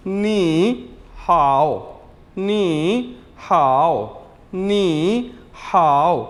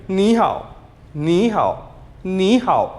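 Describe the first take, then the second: First: नी हाओ stretched very slowly, syllable by syllable; drawn-out teaching model of नी हाओ; slow careful ni hao for learners; slow Chinese demo. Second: नी हाओ said quickly and naturally; quick everyday ni hao; at normal speed. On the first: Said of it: "कैसे बोलेंगे Chinese के अंदर". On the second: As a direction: run नी हाओ at conversational pace. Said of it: "speed में". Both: Shown as a demonstration.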